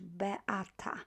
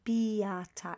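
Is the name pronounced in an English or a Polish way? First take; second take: Polish; English. First: The name is said with Polish sounds. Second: The name is said with English-style sounds. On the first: The speaker calls it right. "It's Beata in Polish" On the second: The speaker calls it wrong. "remember not to pronounce it as Beata"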